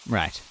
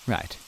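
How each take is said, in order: Both takes have the same delivery.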